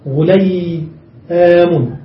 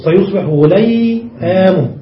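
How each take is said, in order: First: غليام drawn out very slowly, each vowel separate; very slow, deliberate غليام; slow demonstration. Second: سيصبح غليام slowly, stretching غليام; slow, careful غليام; slow demonstration. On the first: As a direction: spell out غليام syllable by syllable, very slowly. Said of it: "نضم الأول ونفتح الثاني ونزيد ياء". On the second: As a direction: lay out غليام slowly for the class. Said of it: "زد ياء". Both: Shown as a demonstration.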